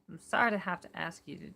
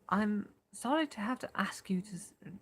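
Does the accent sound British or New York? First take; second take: New York; British. First: It is spoken in a New York accent. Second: It is spoken in a British accent. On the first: The speaker calls it right. "I said New York" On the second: The speaker calls it wrong. "That's British"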